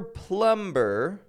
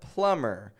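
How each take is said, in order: First: The B sound is pronounced. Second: The B sound is silent. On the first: The speaker calls it wrong. "It's never plumber" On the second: The speaker calls it right. "the B remains silent"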